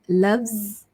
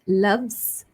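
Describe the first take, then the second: No difference in how they are said.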